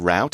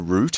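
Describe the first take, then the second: First: The vowel sounds like the 'ow' in out. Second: The vowel sounds like the 'oo' in boot.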